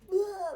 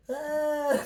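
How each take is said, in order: First: A high, loud full-throated demo scream. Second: A short, half-hearted yell that won't go high; weak mock scream. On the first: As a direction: let it rip like people in the woods. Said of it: "like, really loud". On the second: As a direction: try to scream but it falls short. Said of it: "I can't ever get that high, though, like, screaming". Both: Shown as a demonstration.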